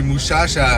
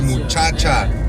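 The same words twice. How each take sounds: First: The ch is softened to a loose sh sound. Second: The ch is said as a full ch sound. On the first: The speaker is from Ciudad Juarez. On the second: The speaker is from elsewhere on the northern border.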